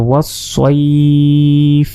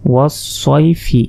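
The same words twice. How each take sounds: First: ওয়াসসাইফ with the ai glide held very long, ending on f; elongated pause form. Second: Said in the usual way. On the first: Shown as a demonstration. Teacher showing the pause, ওয়াসসাইফ drawn out long. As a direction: stretch সাই steadily, then stop on ফ. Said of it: "তিন আলিফ পরিমাণ টেনে পড়তে হবে". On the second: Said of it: "এভাবে যদি আমরা এখানে না থামি".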